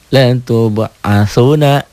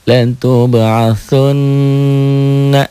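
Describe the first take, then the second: First: The final n sound is short and single. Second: The final n sound is held long and doubled.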